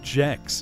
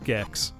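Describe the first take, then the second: First: The word starts with a J sound. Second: The word starts with a hard G sound. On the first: The speaker calls it wrong. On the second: The speaker calls it right.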